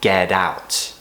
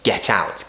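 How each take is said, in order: First: The T is tapped, like a soft D. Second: The T is a crisp, clear T. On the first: "an American might say get out with, a, with that tapped sound" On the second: "I could tell you to get out"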